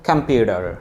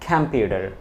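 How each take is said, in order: First: It is said with an American accent. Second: It is said with an American accent.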